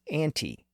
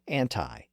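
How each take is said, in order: First: The final vowel sounds like 'ee'. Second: The final vowel sounds like 'eye'. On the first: This is the older, original form of the word. "its original pronunciation as anti" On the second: This is a later, anglicized form of the word. "anglicized it to anti"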